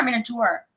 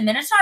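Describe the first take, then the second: First: "Minotaur" pronounced MIN-uh-tore; Minotaur ending in "tore". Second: "Minotaur" pronounced MIN-uh-tar; Minotaur ending in "tar". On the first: Asking co-host which pronunciation is right, "Minotaur" ending in "tore". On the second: Asking co-host which pronunciation is right, "Minotaur" ending in "tar". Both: Shown as a demonstration. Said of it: "is it Minotaur or Minotaur?".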